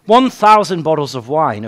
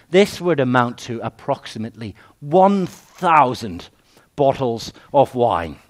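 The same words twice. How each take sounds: First: "One thousand bottles of wine" louder, stress on "One", falling; "One thousand" hammered home for the congregation; emphatic repeat. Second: Said in the usual way. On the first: Acted. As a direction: punch "One" and land "wine" with a fall.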